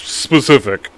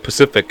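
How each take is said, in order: First: The word starts with an s sound. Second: The word starts without an s sound. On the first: The speaker calls it right. "people are like, it's specific" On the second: The speaker calls it wrong. "I don't say the S. ... I say Pacific"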